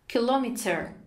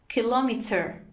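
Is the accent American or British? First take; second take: British; British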